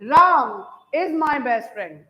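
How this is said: The word Ram carries the main stress. Only Ram is the best friend, no other person. "राम पे ही मान लो stress दे दूं"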